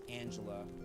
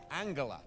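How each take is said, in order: First: The g is soft, like a j. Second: The g is hard, as in go. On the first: This is the current way she says it. "It is pronounced Angela with a soft G" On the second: This is how she used to say it. "used to pronounce her name with a hard G"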